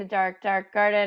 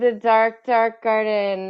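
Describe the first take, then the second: First: It is said in a flat monotone. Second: It is said in a lively, dramatic voice. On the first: "your monotone voice" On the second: "I'll try harder"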